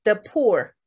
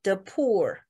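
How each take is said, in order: First: The poor with a long, drawn oo in poor; poor stretched, never clipped. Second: The poor with the run through quickly and lightly; quick weak the, then poor. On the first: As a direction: give poor its full length. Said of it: "你的poor都太短". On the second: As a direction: skim over the, land on poor. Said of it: "就一下子过去哈". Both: Shown as a demonstration.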